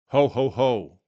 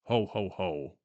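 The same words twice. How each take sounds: First: Loud giant ho ho ho, not deepened; a first stiff attempt at Santa's laugh; first try Santa laugh. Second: Lower, softer Santa laugh; deeper ho ho ho. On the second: Acted. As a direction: drop the voice down like Santa. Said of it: "Now try to deepen your voice".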